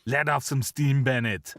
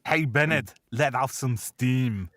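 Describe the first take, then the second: First: Lightly Austrian Arnie line, words in right order; deadpan Arnie delivery; Arnie quote, corrected. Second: Slow, lightly Austrian Arnie line; a hint of Arnie's deadpan; Arnie quote, misquoted. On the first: Retold or imitated. Host correcting the Commando quote, Arnie deadpan. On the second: Host quoting Commando, slow Arnie deadpan. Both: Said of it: "Actually, the line is".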